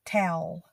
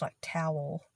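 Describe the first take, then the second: First: "Towel" said as one syllable, tal; Southern "Towel". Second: "towel" said tow-el, two beats; northern "towel"; two-syllable towel. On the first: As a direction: clip "Towel" to one beat. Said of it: "It's one word". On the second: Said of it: "Not two syllables like towel". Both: Shown as a demonstration.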